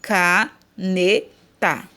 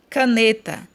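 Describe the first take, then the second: First: Caneta slowly split as CA, NE, TA; a clear pause after each syllable of Caneta. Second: Said in the usual way. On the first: Shown as a demonstration. Teacher showing correct syllable separation, Caneta in pieces. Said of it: "separado a sílaba corretamente".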